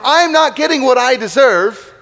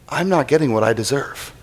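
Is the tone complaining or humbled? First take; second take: complaining; humbled. First: It is said in a complaining, aggrieved tone. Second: It is said in a humbled, realizing tone. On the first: The speaker feels unfairly denied what is owed. "phase one of a prayer of complaint" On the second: The speaker realizes being spared a deserved punishment.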